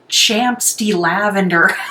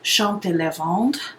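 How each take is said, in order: First: The name is said with an American accent. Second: The name is said with French-style pronunciation.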